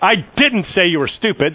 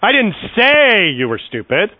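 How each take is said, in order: First: The stress falls on the word didn't. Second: The stress falls on the word say. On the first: It was never said at all. "that's just an emphatic, no, I didn't say it" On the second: It was implied rather than said. "I just inferred you were stupid"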